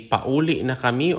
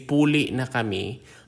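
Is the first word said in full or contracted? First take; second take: full; contracted. First: The first word is said in its full form. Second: The first word is shortened to a contracted form. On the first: "You can say pauli na kami" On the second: "or you can contract it"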